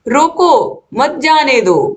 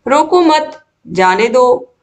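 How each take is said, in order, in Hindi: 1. 'roko' के ठीक बाद विराम है। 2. 'mat' के ठीक बाद विराम है। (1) "यहाँ पर जो अर्थ है रोको यानी कि रोक लो, मत जाने दो उनको" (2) "बीच में कॉमा लगने से मत के बाद"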